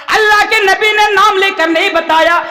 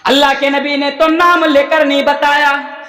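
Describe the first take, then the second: First: Higher, ringing preacher's proclamation; emphatic repetition. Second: Said in the usual way. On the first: Real, not acted. Preacher insisting no names were given, emphatic proclamation. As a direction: hammer the point home, pitched high. Repeats the point with force.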